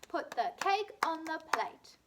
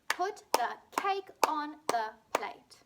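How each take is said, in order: First: It is said fast. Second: It is said at a normal pace.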